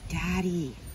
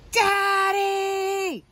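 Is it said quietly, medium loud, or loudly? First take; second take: quietly; loudly. First: It is said very quietly. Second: It is yelled as loud as possible.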